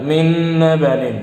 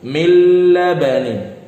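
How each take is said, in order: First: A nasal n hum is heard before abanin. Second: A plain l without nasal hum precedes abanin. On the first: The speaker calls it wrong. "Jangan sampai ada getar" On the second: The speaker calls it right. "jangan sampai ada getar di hidung"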